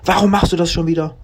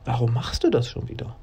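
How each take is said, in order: First: It sounds like an accusing statement. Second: It sounds like a genuine, open question. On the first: The speaker is reproaching, not asking. "Das erste war eine Aussage und ein Vorwurf" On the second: The speaker really wants to know the reason. "das zweite war eine wirkliche Frage"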